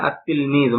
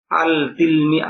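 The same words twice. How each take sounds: First: আত তিলমিজু with no lam, the t doubled; teacher modelling the right আত তিলমিজু; correct pronunciation. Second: আল তিলমি- with the lam of আল sounded, the mistaken way; teacher voicing the wrong আল তিলমি-; wrong pronunciation. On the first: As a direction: say আত তিলমিজু as at-tilmizu, the l dropped into a double t. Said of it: "উচ্চারণে এরকম হবে আত তিলমিজু". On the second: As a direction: say আল তিলমি- as al tilmi, keeping the l, as the error. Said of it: "এরকম না". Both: Shown as a demonstration.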